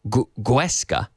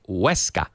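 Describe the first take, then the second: First: The word begins with a hard G sound. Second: The word begins with a soft W sound. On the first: The speaker calls it wrong. "you don't say Guesca" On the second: The speaker calls it right. "You say Huesca"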